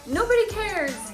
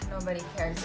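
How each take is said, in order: First: It is said happily, with delight. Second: It is said with a dismayed groan.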